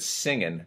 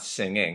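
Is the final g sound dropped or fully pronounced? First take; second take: dropped; pronounced. First: The final g sound is dropped. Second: The final g sound is fully pronounced. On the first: "you'll notice I said singing" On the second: "not singing"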